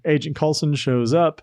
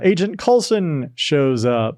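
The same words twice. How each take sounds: First: It is said in a staid, restrained tone. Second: It is said in an excited tone.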